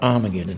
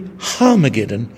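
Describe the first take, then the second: First: The word begins with a vowel, no h. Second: The word begins with an h sound. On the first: The speaker calls it wrong. "not Armageddon" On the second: The speaker calls it right. "So it's really Harmageddon"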